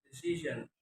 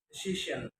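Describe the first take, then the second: First: Said in the usual way. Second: "decision" with sh for zh; learner's mispronunciation. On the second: Shown as a demonstration. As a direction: say "decision" as "desishen". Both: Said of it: "is pronounced".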